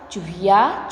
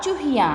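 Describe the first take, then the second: First: Said in the usual way. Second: चूहिया with the final या nasalised as याँ; nasal plural ending. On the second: Shown as a demonstration. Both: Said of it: "चंद्र बिंदु लगा के या कर दिया".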